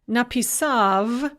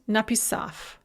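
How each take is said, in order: First: The final consonant is voiced. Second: The final consonant is voiceless.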